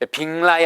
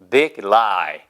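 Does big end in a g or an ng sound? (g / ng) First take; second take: ng; g. First: The g changes to an ng sound before lie. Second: The g stays a clear g before lie. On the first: The speaker calls it wrong. "빙라이 하시면 안 돼요" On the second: The speaker calls it right. "우리말에 자음접변 적용시키시면 절대 안 됩니다"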